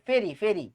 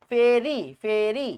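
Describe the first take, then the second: First: Said in the usual way. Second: ফেরি, ফেরি drawn out slowly, each ending rising; slow drill. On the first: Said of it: "repeated before slow take". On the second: Shown as a demonstration. Teacher drilling the rule ফেরি for K3, slow chant. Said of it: "K three হইলে ফেরি হয়".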